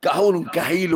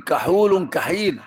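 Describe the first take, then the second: First: كحول كحيل with a rise on كحول, at normal pace; كحول كحيل asked back to the class; rising teaching repeat. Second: كحول كحيل said slowly, each word spaced, كحول falling; slow dictation of كحول كحيل; slow teaching emphasis. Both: Shown as a demonstration. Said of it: "فالقسم الثاني من الكحيل".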